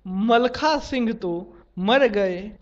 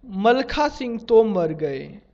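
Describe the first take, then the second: First: Slow, तो closing the first group, then मर गए apart; pause between तो and मर. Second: No pause between तो and मर; तो मर run together. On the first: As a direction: break after तो so मर stands as its own word. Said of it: "स्पष्ट वाक्य". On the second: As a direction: join तो and मर into one word, like Tomar. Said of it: "अस्पष्ट वाक्य". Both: Shown as a demonstration.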